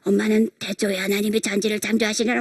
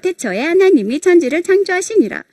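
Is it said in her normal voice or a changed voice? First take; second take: changed voice; normal voice. First: It is said in a changed, put-on voice. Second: It is said in her normal voice.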